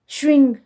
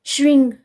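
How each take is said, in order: Both takes have the same delivery.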